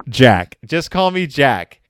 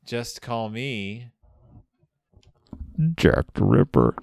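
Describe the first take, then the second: First: Louder mock-menacing repeat of the name; hammed-up shout. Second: Slow dramatic reveal. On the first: The killer shouts his name at Sir Guy, hammed-up loud. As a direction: belt it like a pulp villain. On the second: Retold or imitated. The killer reveals his name to Sir Guy, slow and ominous. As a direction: let the name land like a hammer after a hush.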